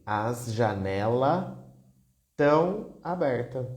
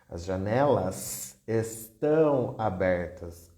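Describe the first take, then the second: First: The verb is shortened, with parts of words dropped. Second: The verb is said in full, every syllable pronounced. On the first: This is casual everyday speech. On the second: This is careful standard speech.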